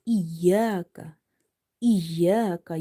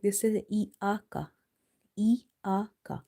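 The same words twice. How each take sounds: First: Iyaka with a clear ya after the i; correct pronunciation. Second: Iaka with no ya sound, a plain vowel; mispronounced iaka, no ya; wrong pronunciation. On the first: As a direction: say iyaka with a distinct ya. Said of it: "You have to pronounce ya here". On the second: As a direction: say iaka the mistaken way. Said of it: "mostly people are making mistake". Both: Shown as a demonstration.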